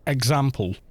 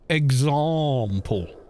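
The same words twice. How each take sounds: First: It is said in a non-RP regional British accent. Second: It is said in received pronunciation. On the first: "So I would say example" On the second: "but a received pronunciation would say example"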